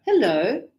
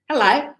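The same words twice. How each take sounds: First: Said in the usual way. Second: Hello punched out as broad "huh-LIE"; Aussie hello. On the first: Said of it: "So he doesn't go, "Hello". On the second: Shown as a demonstration. Teacher copying the advert for students, broad Aussie Hello. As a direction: broaden the last vowel of Hello, Aussie-style. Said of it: "He goes, "Hello".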